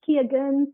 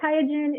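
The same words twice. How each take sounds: First: The name is said with a German pronunciation. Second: The name is said with an American pronunciation. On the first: "In Germany, it's Qiagen" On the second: "in the U S, they say Qiagen"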